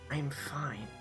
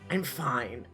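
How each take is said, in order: First: It is said in a softer voice. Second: It is said in a normal voice.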